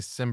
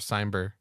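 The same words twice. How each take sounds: First: The first syllable does not rhyme with climb. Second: The first syllable rhymes with climb.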